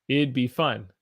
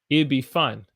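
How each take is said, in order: First: It and would merge into one contracted syllable pair. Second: The same.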